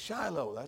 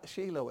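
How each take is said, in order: First: Shiloh is said the usual English way. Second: Shiloh is said the way locals there say it. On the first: The speaker calls it right. "it's Shiloh. Everybody knows that" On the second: The speaker calls it wrong. "They always pronounce it Shiloh over there"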